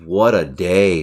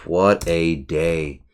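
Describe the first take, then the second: First: Said in the usual way. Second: Slow, drawn-out sigh of a phrase. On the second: Real, not acted. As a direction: draw each word out, worn out.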